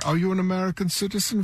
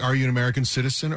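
First: It is said in a put-on German accent. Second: It is said in the speaker's ordinary accent.

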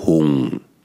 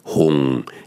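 No difference in how they are said.

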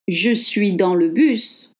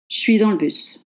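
First: The vowel in le is fully pronounced. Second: The vowel in le is dropped. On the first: The speaker calls it wrong. "I don't say je suis dans le bus" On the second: The speaker calls it right. "In spoken French, le E is dropped"

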